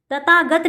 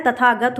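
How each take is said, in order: First: तथागत with plain t for th, as "tatagat"; wrong pronunciation. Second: Said in the usual way. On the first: Shown as a demonstration. Teacher shows the wrong word, said "tatagat". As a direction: take the breath out of th in तथागत. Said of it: "तथागत नहीं होता है". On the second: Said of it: "तथागत होता है".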